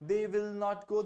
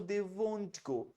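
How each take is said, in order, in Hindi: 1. 'will not' शब्द पूरे बोले जाते हैं। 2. 'will not' शब्द 'won't' बन जाते हैं। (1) "आप विल नॉट बोल सकते हैं" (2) "अन्यथा वोंट बोल सकते हैं"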